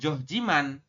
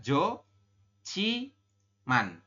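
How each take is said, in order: First: The second syllable starts with a plain j sound. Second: The second syllable starts with an aspirated ch sound. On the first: The speaker calls it wrong. "Jadi Anda membacanya bukan joh jiman" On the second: The speaker calls it right. "tapi dibacanya adalah jo ci man ya"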